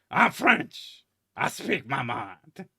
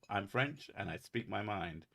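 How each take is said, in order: First: Loud, high, hammed-up bad French accent; John Cleese French accent. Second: Bad French accent. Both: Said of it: "in a John Cleese bad French accent".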